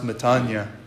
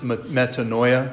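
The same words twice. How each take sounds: First: The word has a Greek-style pronunciation. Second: The word has a common English-style pronunciation. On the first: "It's pronounced metanoia in Greek" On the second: "probably heard or written and pronounced as metanoia"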